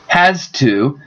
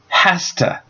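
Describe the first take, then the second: First: Both words are said fully and separately. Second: The words blend into one reduced word.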